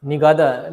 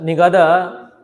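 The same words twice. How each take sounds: First: Said in the usual way. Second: Nigadha said louder, every syllable stressed; emphatic repeat. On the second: Real, not acted. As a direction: push the name Nigadha out firmly so they catch it.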